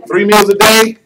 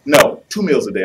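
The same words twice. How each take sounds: First: High, loud, laughing disbelief; the wife scoffing at three meals; incredulous question. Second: "No, two" with the stress on "two"; wife cutting the meals to two; firm correction. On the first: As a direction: laugh it off as absurd. Wife questions husband's list. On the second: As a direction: put down the number flatly. Wife counters with her version. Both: Retold or imitated.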